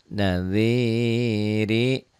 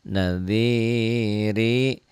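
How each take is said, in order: Both takes have the same delivery.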